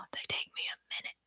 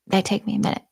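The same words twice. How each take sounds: First: Quick, unvoiced whisper; whispered aside. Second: Said in the usual way. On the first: Real, not acted. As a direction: whisper it quickly under your breath. Whispered aside, then repeated aloud.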